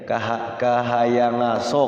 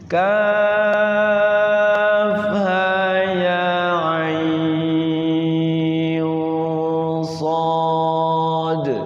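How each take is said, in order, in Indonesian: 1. Huruf-huruf itu disambung menjadi satu kata. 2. Setiap huruf diucapkan dengan nama lengkapnya. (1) "Saking belum pernah ngajinya" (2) "bacanya harus dengan sesuai tajwid"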